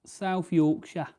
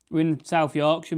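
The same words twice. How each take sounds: First: South Yorkshire said slowly in a thick South Yorkshire accent; broad South Yorkshire accent. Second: Said in the usual way. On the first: Shown as a demonstration. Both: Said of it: "Should be able to tell by the accent".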